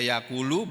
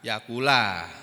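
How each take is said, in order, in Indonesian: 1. Kata ini diakhiri dengan vokal 'u'. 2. Kata ini diakhiri dengan vokal 'a'. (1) "bisa dibaca dengan rofa" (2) "fi'il mudhari'nya dibaca mansub"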